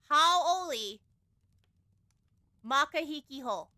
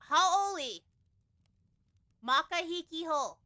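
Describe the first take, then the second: Both takes have the same delivery.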